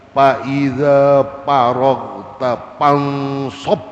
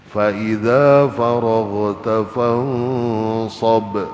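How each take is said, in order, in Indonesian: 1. Kata pertama dimulai dengan bunyi p. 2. Kata pertama dimulai dengan bunyi f.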